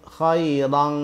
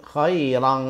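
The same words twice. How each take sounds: The two takes are said the same way.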